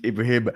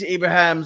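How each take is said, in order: First: Ibrahim said with "him" at the end; corrected name. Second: Ibrahim said as "Ibra-ham"; mispronounced name. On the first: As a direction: repeat Ibrahim ending on "him", not "ham". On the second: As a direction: end Ibrahim with "ham" instead of "him". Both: Real, not acted. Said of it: "There's no Ham in my name".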